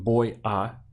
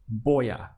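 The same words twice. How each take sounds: First: A break falls between the two words. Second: The two words run together as one word. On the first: The speaker calls it wrong. "don't separate them" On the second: The speaker calls it right. "we say it all as one word"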